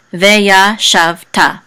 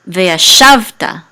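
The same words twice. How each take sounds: First: Said in the usual way. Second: "veya shavta" with "shav" long and stressed. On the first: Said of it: "oh sorry, but the trope mark is under the shav". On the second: Shown as a demonstration. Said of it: "with the accent in this syllable".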